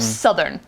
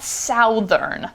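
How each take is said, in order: First: The first vowel is the short 'uh' sound. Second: The first vowel is not the short 'uh' sound. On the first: The speaker calls it right. "should be southern, like cut, that uh vowel" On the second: The speaker calls it wrong. "It's not southern"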